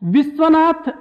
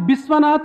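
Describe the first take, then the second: First: The name begins with a v sound. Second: The name begins with a b sound.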